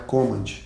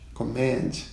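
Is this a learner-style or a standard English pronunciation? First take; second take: learner; standard. First: It uses the common learner pronunciation. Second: It uses the standard English pronunciation. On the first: The speaker calls it wrong. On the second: The speaker calls it right.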